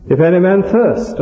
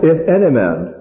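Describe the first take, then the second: First: "thirst" set out with a high, falling tune; stress on thirst. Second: "any" lifted higher in "If any man"; stress on any. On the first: Preacher shows an appeal to immemorial need, stressing "thirst". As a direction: raise the phrase and land firmly on "thirst". Stresses next point in same verse. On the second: Preacher shows the appeal to every man, stressing "any". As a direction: lean on "any" to take in everybody. Stresses words of verse being expounded. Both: Shown as a demonstration.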